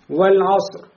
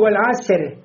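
First: The final r is heavy and broad. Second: The final r is light and soft. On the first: The speaker calls it right. "ро становится муфахам" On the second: The speaker calls it wrong. "«ре» мягкое"

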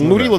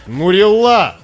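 First: The stress is not on the last syllable. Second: The stress is on the last syllable. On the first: The speaker calls it wrong. "Звучало, смотрите, красиво, ну, поэтично" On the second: The speaker calls it right. "Ударение на последний слог"

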